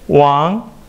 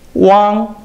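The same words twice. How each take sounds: First: The pitch rises from mid to high. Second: The pitch stays high and level.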